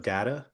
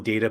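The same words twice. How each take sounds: First: "data" with an open A in the first syllable; data with short A. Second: "data" with a long A, DAY-ta. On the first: Explaining the plural to co-host, "data" with short A. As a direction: say "data" to rhyme with "matter". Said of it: "data is the plural". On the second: Explaining the singular to co-host, "data" as DAY-ta. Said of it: "one data point or points of data". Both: Shown as a demonstration.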